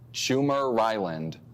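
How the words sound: An r sound links Chuma to Island. "because of all their Australian accents, ... they say Chumar Island"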